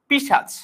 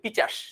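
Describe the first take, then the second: First: The sh sound comes before the ch sound. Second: The ch sound comes before the s sound. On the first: "শব্দটা ছিল পিশাচ" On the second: "এটাকে যদি আমরা পিচাস বলি"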